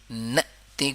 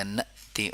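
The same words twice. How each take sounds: First: ناتی said without the hamza catch; wrong soft hamza. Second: نأتی with a clear glottal catch on the hamza. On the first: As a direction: say ناتی smoothly, no glottal stop. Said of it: "نأتی کو ناتی پڑھ لیتے ہیں". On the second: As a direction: break sharply before the vowel in نأتی. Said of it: "جھٹکا ادا ہوگا". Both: Shown as a demonstration.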